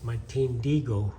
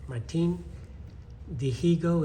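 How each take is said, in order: First: The h in the surname is silent. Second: The h in the surname is sounded. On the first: This is how it is said in Spanish. The speaker calls it right. "in Spanish you don't pronounce the H" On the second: This is how people commonly say it. The speaker calls it wrong. "is how you you hear it pronounced"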